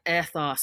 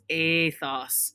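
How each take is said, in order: First: The first vowel is a short 'eh' sound. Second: The first vowel is a long 'ay' sound. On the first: "the little E, is a ethos, so like ethics" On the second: "it has a A sound, so it's athos"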